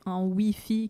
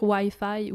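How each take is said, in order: First: "Wi-Fi" said the French way, wee-fee; French pronunciation. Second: "Wi-Fi" said the English way, why-fye; English pronunciation. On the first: Retold or imitated. Quebecer quotes what annoyed her in Paris, "Wi-Fi" as wee-fee. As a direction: rhyme both halves of "Wi-Fi" with French "oui". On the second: Shown as a demonstration. Quebecer gives her own word, "Wi-Fi" pronounced why-fye. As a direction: rhyme both halves of "Wi-Fi" with "eye". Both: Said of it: "on dit pas Wi-Fi".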